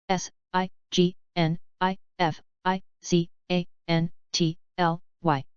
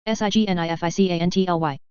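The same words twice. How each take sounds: First: Slow, letter by letter; unhurried classroom spelling. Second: Quick letter run; brisk recap spelling; fast spelling. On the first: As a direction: spell each letter out slowly. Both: Shown as a demonstration. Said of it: "spelling drill, slow then fast".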